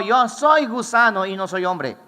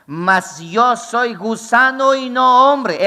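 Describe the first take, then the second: First: Said in the usual way. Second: Lento y más fuerte, cada palabra pesada; déjalo caer despacio, solemne; grave cita lenta. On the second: Acted. Predicador cita al Cristo humillado. (cita solemne y lenta)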